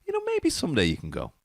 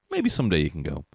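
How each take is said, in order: First: Slightly higher, placating mom impression; lightly voiced mom. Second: Said in the usual way. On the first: Mom putting off a pleading child, placating. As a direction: imitate mom gently fobbing off a child. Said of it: "My mom would be like".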